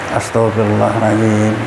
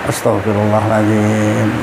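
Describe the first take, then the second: No difference in how they are said.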